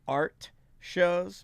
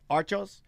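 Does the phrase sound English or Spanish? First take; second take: English; Spanish. First: It is said as plain English with clear sounds. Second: It is run together to sound like Spanish. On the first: "you are saying art shows" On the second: "which sounds very like a Spanish word"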